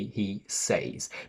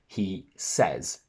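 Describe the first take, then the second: First: The vowel in 'says' is a long 'ay'. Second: The vowel in 'says' is a short 'eh'. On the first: The speaker calls it wrong. "We can't say he says" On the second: The speaker calls it right. "We go from I say to he says"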